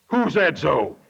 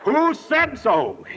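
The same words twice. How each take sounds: First: Low, unruffled owl voice; old Mister Owl. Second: Slow, higher "Who said so?", each word drawn out; emphatic owl question. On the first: Old Mister Owl looks down on the panicked bunch, low owl voice. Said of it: "he looked down and said". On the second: Old Mister Owl checks the sources, slow emphatic "Who said so?". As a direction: stretch "Who said so?" into a slow, pointed challenge. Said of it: "he said". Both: Retold or imitated.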